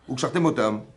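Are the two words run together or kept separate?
run together. The two words are run together without separation. It sounds like tying up their death. The speaker calls it wrong. "ils vont attacher leur mort"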